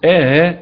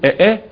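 First: The second stop is softened, with no vowel between. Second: Both glottal stops are full, with no vowel between. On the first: "تحقيق مع تسهيل الهمزة بدون فصل" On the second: "من القراء يحقق الهمزتين"

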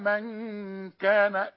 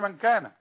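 First: The n sound is held with a nasal hum. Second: The n sound is cut short without nasal hold. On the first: The speaker calls it right. "أنا عايزك تغن دي من كان" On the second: The speaker calls it wrong. "ما تقولش من كان"

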